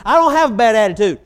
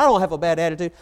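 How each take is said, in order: First: Much louder and higher, punching "don't"; "I don't have a bad attitude" with DON'T hit hard, stubborn and raised; louder repeated denial. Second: A firm but contained denial, stress on I; "I don't have a bad attitude" with the weight on I, said at a normal level; first denial. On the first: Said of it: "and we'll just do". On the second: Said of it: "And one of them said".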